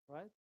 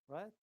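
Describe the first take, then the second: No difference in how they are said.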